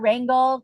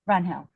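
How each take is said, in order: First: The g is pronounced as a hard g. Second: The g is not pronounced as a hard g. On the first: The speaker calls it wrong. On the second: The speaker calls it right. "There's no G"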